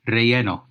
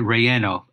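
First: The word is said with a Spanish pronunciation. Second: The word is said with an American pronunciation. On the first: "In Spanish, and all you Spanish speakers, feel free to correct my pronunciation" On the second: "So to Americanize it"

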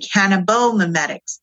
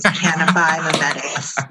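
First: The vowel after 'cannab' is an o sound. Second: The vowel after 'cannab' is an i sound. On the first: The speaker calls it wrong. "I've heard like people say cannabomimetics, but there's no O in it" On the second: The speaker calls it right. "pronunciation.com says it's cannabimimetics"

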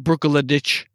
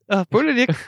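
First: The name ends with a 'ch' sound. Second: The name ends with a 'k' sound. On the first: The speaker calls it wrong. "That way you don't say, you know" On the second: The speaker calls it right. "you have to say it like we do on the island"

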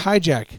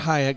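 First: The name sounds like 'hijack'. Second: The name sounds like 'hayek'. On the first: The speaker calls it right. "It's Hijack" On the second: The speaker calls it wrong. "It's not Hayek. You guys say it wrong"

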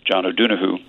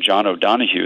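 First: The name is said with an Irish pronunciation. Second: The name is said with an American pronunciation. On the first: "In Ireland, we say" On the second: "is how you'd say it in America"

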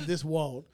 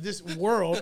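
First: The word comes out sounding like wall. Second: The word is said fully as world. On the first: The speaker calls it wrong. "I could not say the word world" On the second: The speaker calls it right. "Instead of this world"

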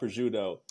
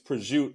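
First: The final vowel is pronounced. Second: The final vowel is dropped. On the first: This is the standard Italian way of saying it. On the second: This is the Italian American way of saying it.

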